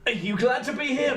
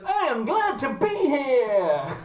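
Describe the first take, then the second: First: Higher, tentative question to a dog; unsure human humouring a robot; Alison. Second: Very high, slow robot dog voice; high-pitched, over-keen robot pup; Buddy. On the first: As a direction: ask the robot pup carefully, pitched up. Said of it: "She has no idea how to react to this robot dog". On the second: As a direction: announce it eagerly in a stretched robotic squeal. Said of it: "But he goes". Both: Acted.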